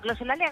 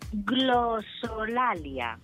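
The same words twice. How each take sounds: First: The word is said quickly. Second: The word is said slowly and carefully. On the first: "Tú la dices muy rápido" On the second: "la voy a decir despacito"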